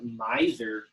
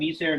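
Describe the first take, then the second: First: It is pronounced as the English word. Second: It is pronounced as the Latin word. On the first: It is the English word for a stingy person. "there is an English word that looks just like this, and we would pronounce it miser" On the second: It is the Latin word for miserable or wretched. "this comes from miser, misera, miserum, which means miserable"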